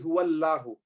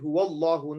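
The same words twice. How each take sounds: First: The 'l' in Allah is light and thin. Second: The 'l' in Allah is heavy, full-mouthed. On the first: The speaker calls it wrong. "We don't say huwallahu" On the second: The speaker calls it right. "We say huwallahu. Now Allah is full mouth"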